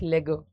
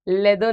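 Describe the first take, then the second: First: The word is said with a 'g' sound. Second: The word is said with a 'd' sound. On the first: The speaker calls it right. "It's लेगो" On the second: The speaker calls it wrong. "लेदो नहीं"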